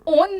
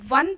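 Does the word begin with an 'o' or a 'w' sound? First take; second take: o sound; w sound. First: The word begins with a plain 'o' vowel. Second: The word begins with a 'w' consonant sound. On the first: The speaker calls it wrong. "आप ओन नहीं पढ़ते हैं इसको" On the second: The speaker calls it right. "वन पढ़ते हैं इसको"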